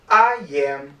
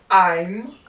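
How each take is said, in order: First: Both words are said in full. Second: The two words are contracted into one syllable.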